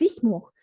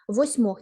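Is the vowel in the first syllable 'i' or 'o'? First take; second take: i; o. First: The first syllable has the vowel i. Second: The first syllable has the vowel o. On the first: The speaker calls it right. "Там чергування відбувається о і і" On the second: The speaker calls it wrong. "ніяких восьмох"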